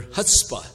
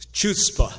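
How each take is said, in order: First: "chutzpah" begins with a breathy h: hutspa; chutzpah with h sound. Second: "chutzpah" said with a hard ch as in church: tchootspa; chutzpah with ch sound. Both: Shown as a demonstration. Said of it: "Looks like the same to me".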